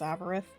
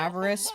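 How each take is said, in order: First: The name ends with a lisped th sound. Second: The name ends with a plain s sound. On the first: This is how a lisp makes it sound. "because she has a lisp" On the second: This is the real name. "her real name is"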